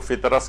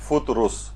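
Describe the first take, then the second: First: The first syllable has an i vowel. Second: The first syllable has a u vowel. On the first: The speaker calls it wrong. "बहुत से लोग इसको फितरस कहते हैं" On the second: The speaker calls it right. "असल इसकी pronunciation है फुतरुस"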